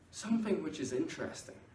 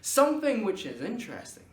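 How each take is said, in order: First: It is said at an even, flat volume. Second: It is said with a spike of volume. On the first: The listener may only half pay attention. The speaker calls it wrong. "have I got your full attention? Maybe" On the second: The listener is drawn in from the start. The speaker calls it right. "I've got you from the start there"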